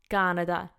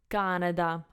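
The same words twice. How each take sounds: The two takes are said the same way.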